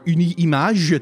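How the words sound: The name is said with French pronunciation.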